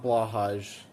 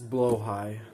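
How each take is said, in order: First: The word is said with an English pronunciation. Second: The word is said with a Swedish pronunciation. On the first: The speaker calls it wrong. "It's not Blahaj" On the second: The speaker calls it right. "That's how you say it in Swedish"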